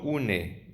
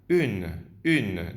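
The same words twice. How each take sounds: First: "une" read Spanish-style as "u-ne"; wrong pronunciation. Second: "une" as one syllable, "ün"; French u in "une", final e silent; correct French pronunciation. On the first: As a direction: sound the final e of "une". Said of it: "no une". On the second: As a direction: say "une" with rounded lips, ending on n. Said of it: "femenino se pronuncia". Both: Shown as a demonstration.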